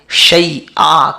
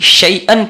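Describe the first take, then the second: First: The word ends with a long vowel. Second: The word ends with an n sound. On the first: The speaker calls it right. "शैआ कहेंगे" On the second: The speaker calls it wrong. "दो ज़बर के बजाय"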